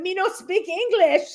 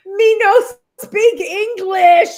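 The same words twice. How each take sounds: First: Lightly mimicked broken English, much higher; a playful echo of the broken-English line, higher; mock broken English. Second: Imitating broken English, much higher, louder and slow; mock broken English. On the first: Repeating Harry's line while laughing, in light broken English. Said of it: "we laughed about that". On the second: Harry brushing someone off, imitated in broken English. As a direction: ham up a broken-English reply. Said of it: "and he goes".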